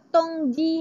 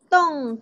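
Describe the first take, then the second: First: The n and g are sounded separately. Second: The final ng is one blended sound. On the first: The speaker calls it wrong. "kita tak sebut tong ji" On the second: The speaker calls it right. "satu bunyi iaitu tong"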